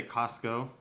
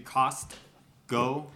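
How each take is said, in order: First: Costco run together as "Cosco"; dropped T. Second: Costco with a crisp T, slowly; T pronounced. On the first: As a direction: say Costco casually, leaving out the middle T. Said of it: "but instead we say Costco". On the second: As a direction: split Costco into "Cost... Co", sounding the T. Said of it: "it's supposed to be Costco". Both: Shown as a demonstration.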